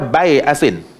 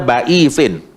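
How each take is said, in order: First: The word sounds like bai-a-sin. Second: The word sounds like ba-i-sin. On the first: This is another accepted reading of the verse. "Syu'bah baca bai'asin" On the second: This is one accepted reading of the verse. "Imam Hafs baca ba'isin"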